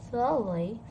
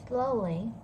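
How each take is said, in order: No difference in how they are said.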